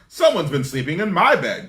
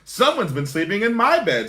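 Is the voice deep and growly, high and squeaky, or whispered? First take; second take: deep growly; high squeaky. First: It is growled in a deep voice. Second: It is squeaked in a high voice.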